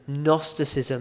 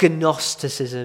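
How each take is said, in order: First: The word begins with an N sound. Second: The word begins with a hard G sound. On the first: The speaker calls it right. "it begins with a G, but you don't pronounce it" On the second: The speaker calls it wrong. "So it's not Gnosticism"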